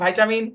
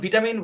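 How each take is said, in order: First: It is said with an American pronunciation. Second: It is said with a British pronunciation. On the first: "American ইংলিশে" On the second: "British English"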